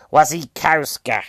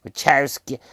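First: "Wasikowska" said carefully and slowly, vah-shee-KOF-ska; corrected name. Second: "Wachowski" said as wah-KOW-skee, a botched guess; wrong name. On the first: Fixing the actress's name for viewers, careful "Wasikowska". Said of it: "Mia Wachowski". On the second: Naming the film's actress, first wrong try "Wachowski". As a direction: fumble "Wachowski" before correcting it. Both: Shown as a demonstration.

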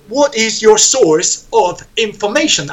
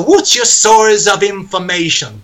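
First: "What is your source of information?" each word separate, stiff; stiff unlinked. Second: "what's your source of information?" flowing and connected; the natural way, words linked. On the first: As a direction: say it word by word, not how people talk. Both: Shown as a demonstration. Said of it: "Así no se habla".

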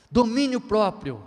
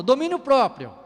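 First: Domínio próprio stretched slowly, each word weighted; slow emphasis. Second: Domínio próprio called out loud and high; loud announcement. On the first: Preacher repeating the virtue to the church, slow and weighty. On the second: Preacher announcing the next virtue, loud proclamation. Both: Acted.

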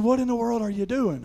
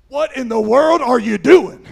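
First: Higher-pitched retold question at normal volume; toned-down scolding. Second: Loud, higher exasperated yell; dad's scolding shout. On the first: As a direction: imitate dad's exasperation without shouting. Retells dad's question with less force. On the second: Retold or imitated. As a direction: imitate an alarmed father yelling at his kid. Dad scolding after the rescue.

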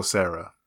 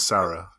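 First: "Sarah" with first vowel as in "air"; alternate name pronunciation. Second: "Sarah" with first vowel as in "cat"; corrected name pronunciation. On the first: Naming the sister-in-law, "Sarah" said SAIR-uh. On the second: Correcting the sister-in-law's name, "Sarah" with open A. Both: Shown as a demonstration. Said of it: "is it Sarah or Sarah".

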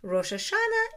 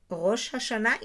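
First: Rosh Hashanah with American vowels, high start; American accent. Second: Rosh Hashanah with Hebrew sounds, guttural h; Israeli accent. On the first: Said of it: "in American accent". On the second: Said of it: "in Israeli accent". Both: Shown as a demonstration.

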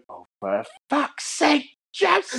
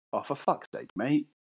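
First: High, drawn-out shriek of a mum; hammed-up screeching mum impression; exasperated mum. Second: Lightly voiced dad, softer; mild, understated dad grumble; a hint of an exasperated father; weary dad. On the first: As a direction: wail it slowly like a horrified mother. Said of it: "And she went". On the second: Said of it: "my dad was like".

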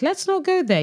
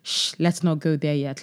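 First: High-pitched mock alarm; mock scolding. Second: Said in the usual way. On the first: Host telling Kirk to drop the subject, high mock scolding. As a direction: shoot up high in playful protest.

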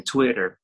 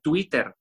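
First: "Twitter" with a tapped English t; "Twitter" as an English word inside Spanish; English pronunciation. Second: "Twitter" with a hard Spanish t, tu-I-ter; slow, hispanicised "Twitter"; Spanish pronunciation. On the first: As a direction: say "Twitter" the American way, like "twi-rer". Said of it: "uno pronuncia todo en inglés". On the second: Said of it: "se dice Twitter". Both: Shown as a demonstration.

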